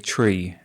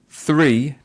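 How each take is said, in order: First: The word begins with a plain t sound. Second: The word begins with a soft th sound. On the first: The speaker calls it wrong. "they might say tree" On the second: The speaker calls it right. "instead of three"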